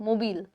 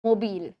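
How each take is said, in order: No difference in how they are said.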